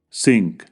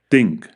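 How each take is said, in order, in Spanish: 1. La palabra empieza con un sonido s. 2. La palabra empieza con un sonido th. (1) "los sustituyen por sonidos similares en español, como s" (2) "el sonido inglés th"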